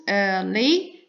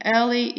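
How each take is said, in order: First: "early" split slowly into ear-lee; syllable by syllable. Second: Said in the usual way. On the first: Shown as a demonstration. Teacher showing two syllables, "early" said as ear-lee. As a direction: give each of the two beats in "early" its own space. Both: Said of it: "Early is two syllables".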